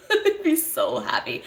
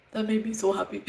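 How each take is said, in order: First: Higher, bubbling with real laughter; giggling with joy; laughing happily. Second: Said in the usual way. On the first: Real, not acted. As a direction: say it through a happy laugh.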